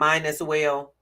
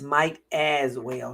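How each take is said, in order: First: The first word ends with an n sound. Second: The first word ends with a t sound. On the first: The speaker calls it wrong. "who used to say it like that" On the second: The speaker calls it right. "not mine as well"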